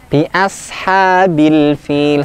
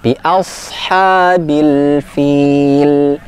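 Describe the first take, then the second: First: The s sound is light and thin. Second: The s sound is heavy and thick. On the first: The speaker calls it wrong. "masih terlalu ringan ... seperti huruf sin" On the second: The speaker calls it right. "Pangkal lidahnya kita angkat, kita naikkan"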